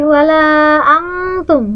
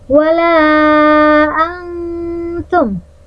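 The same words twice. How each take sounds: First: The n is pronounced fully and distinctly. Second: The n is concealed, shaped toward the t. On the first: The speaker calls it wrong. "Nggak boleh" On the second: The speaker calls it right. "harus menyerupai huruf ta"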